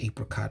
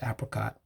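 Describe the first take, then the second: First: The first vowel is a long 'ay' sound. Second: The first vowel is a short 'a' sound. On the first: "long A" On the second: "some people would pronounce it apricot"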